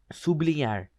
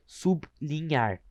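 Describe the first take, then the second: First: Said in the usual way. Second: Slow "sublinhar", parted as sub - linhar; syllable split. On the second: Shown as a demonstration. Teacher showing how you say "sublinhar", slowly split sub-linhar. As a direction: say "sublinhar" with a pause after sub. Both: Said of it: "Tu fala assim".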